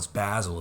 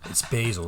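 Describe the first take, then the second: First: Basil is said the British way. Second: Basil is said the American way.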